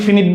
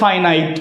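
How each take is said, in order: First: The first vowel sounds like 'ih'. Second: The first vowel sounds like 'eye'. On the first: "অনেকেই ফিনিট বলে, দুইটা উচ্চারণই সঠিক" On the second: "উচ্চারণটা হচ্ছে ফাইনাইট"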